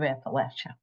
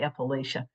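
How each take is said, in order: First: It is said the other, non-Ohio way. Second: It is said the Northern Ohio way.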